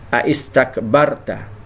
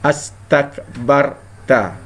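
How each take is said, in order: First: The word starts with a separate 'a-is' sound. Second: The word starts directly with an 'as' sound. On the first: The connecting hamza is kept after the question hamza. The speaker calls it wrong. "jika tidak dibuang dia akan berbunyi aistakbarta" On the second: The connecting hamza is dropped after the question hamza. The speaker calls it right. "tapi dia dibuang, maka jadilah astakbarta"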